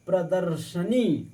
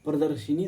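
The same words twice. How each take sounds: First: प्रदर्शनी said slowly and clearly, no i after श; teacher stressing प्रदर्शनी as the right form; correct pronunciation. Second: प्रदर्शिनी quickly, with an i after श; tossing off the wrong form प्रदर्शिनी; wrong pronunciation. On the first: Teacher to students, correcting a word, slow careful. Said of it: "हम लोग कहते हैं ना". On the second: Teacher to students, quick dismissive wrong form. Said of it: "प्रदर्शिनी थोड़ी नहीं कहते". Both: Shown as a demonstration.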